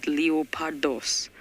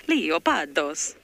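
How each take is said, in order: First: Slow, drawn-out Greek leopardos; Greek accent. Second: Slow, loud Italian leopardos; Italian accent. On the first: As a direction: say leopardos slowly, Greek style. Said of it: "I don't know why I said it like that". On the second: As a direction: stretch out leopardos, Italian style. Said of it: "I think that sounds more Italian". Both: Shown as a demonstration.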